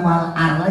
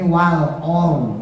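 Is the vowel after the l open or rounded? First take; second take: open; rounded. First: The vowel is an open, clear a. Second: The vowel is rounded toward o. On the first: The speaker calls it right. "jadi bukan wal ar lagi" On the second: The speaker calls it wrong. "jangan gara-gara ro-nya kita mau tebelin terus kemudian a-nya jadi ikut monyong"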